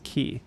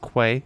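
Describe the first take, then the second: First: The word is said like 'key'. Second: The word is said like 'kway'. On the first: The speaker calls it right. "I know Q U A Y is key" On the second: The speaker calls it wrong. "I read it as Queens Quay, and I have to correct it in my head"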